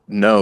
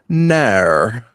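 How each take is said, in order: First: The word is said with a plain, short vowel. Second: The word is said with a drawn-out, extra vowel. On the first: "Instead of just no" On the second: "you guys add extra vowels and stuff to the word no"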